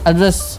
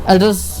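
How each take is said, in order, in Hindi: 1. Stress दूसरे अक्षर पर है। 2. स्ट्रेस दूसरे अक्षर पर है।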